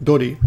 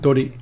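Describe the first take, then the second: Both takes have the same delivery.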